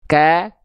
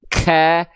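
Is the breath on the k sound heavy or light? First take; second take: light; heavy. First: The k is released with a light breath. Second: The k is released with a heavy breath. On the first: The speaker calls it right. "Natural aja, cukup percikan" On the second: The speaker calls it wrong. "Becek itu dilafalkan begini"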